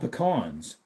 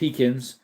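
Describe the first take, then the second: First: The word sounds like 'pecans'. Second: The word sounds like 'pekins'. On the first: This is the speaker's own usual pronunciation. "I call them pecans" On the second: This is an older family pronunciation from Wisconsin. "My grandpa used to call them pekins"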